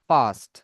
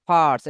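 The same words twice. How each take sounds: First: ফার্স্ট as "faast", no R before "st", falling; ফার্স্ট without sounded R. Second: ফার্স্ট with the R pronounced before "st"; ফার্স্ট with sounded R. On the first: Teacher modelling the more standard English way, ফার্স্ট with silent R. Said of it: "American ইংলিশে বলা যেতে পারে". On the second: Teacher showing how we used to say it, ফার্স্ট with an audible R. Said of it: "এভাবে র শুনতাম ফার্স্ট". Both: Shown as a demonstration.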